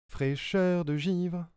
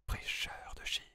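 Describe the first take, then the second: First: It is spoken in a normal voice. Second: It is spoken in a whisper.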